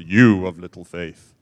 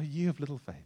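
First: It is said sternly and severely, scolding. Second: It is said warmly and gently, smiling. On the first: It is a harsh rebuke. The speaker calls it wrong. "Not like a headmaster. ... I don't think he said it like that" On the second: It is a loving encouragement. The speaker calls it right. "with a smile on his face. ... Like a father"

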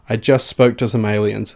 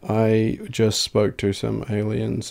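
First: The voice is lively, with much energy. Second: The voice is flat, with little energy. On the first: "Now say it other way" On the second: "Boring monotone"

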